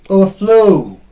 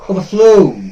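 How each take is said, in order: The two takes are said the same way.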